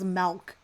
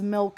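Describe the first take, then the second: First: The word is said with a foreign-sounding pronunciation. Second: The word is said in a plain, ordinary way. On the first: The speaker calls it wrong. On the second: The speaker calls it right.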